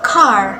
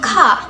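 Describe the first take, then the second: First: The final r sound is clearly pronounced. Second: The final r sound is faint or missing. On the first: "the letter R sounds very clear" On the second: "sounds faint and even missing"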